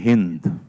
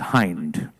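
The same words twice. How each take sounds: First: Hind is given its Hindi pronunciation. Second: Hind is given an English pronunciation. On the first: It is the Indian word, not the surname. The speaker calls it wrong. "not pronounced as in Jai Hind" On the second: It is the man's English surname. The speaker calls it right. "He's Hind"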